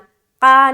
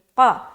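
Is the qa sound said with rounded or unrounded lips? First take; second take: unrounded; rounded. First: The qa is said with unrounded lips. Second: The qa is said with rounded lips. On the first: The speaker calls it wrong. "क़ा नहीं" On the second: The speaker calls it right. "क़ा गोल करके"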